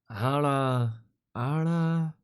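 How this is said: It is said in a scornful voice.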